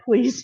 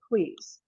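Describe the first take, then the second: First: "please" lifted and a little louder; quoting a friend's polite "please"; stressed "please". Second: Said in the usual way. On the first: Retold or imitated. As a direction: tack on "please" brightly. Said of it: "she added". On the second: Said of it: "I said".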